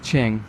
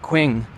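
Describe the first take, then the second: First: Qing is said with its Chinese sound. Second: Qing is said as English spelling suggests. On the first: The speaker calls it right. "the last dynasty of China is Qing" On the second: The speaker calls it wrong. "if you're not familiar, you'd say the Qing"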